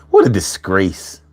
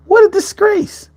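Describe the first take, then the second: First: Said in the usual way. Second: High squeaky what a disgrace; mock high outrage. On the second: Repeats the line mockingly high.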